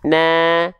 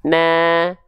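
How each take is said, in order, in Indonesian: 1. Vokalnya diucapkan dengan sedikit senyum. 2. Vokalnya diucapkan dengan sedikit senyum.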